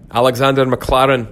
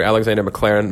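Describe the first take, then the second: First: Higher, hammed-up Scottish accent; bad Scottish accent. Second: Said in the usual way. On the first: Shown as a demonstration. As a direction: say the name in a poorly faked Scottish burr. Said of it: "horrific Scottish accent".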